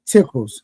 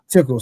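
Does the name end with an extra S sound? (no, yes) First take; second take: yes; no. First: The name ends with an added S sound. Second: The name ends without the added S sound. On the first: The speaker calls it right. "you left out the S at the end" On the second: The speaker calls it wrong. "not tickles"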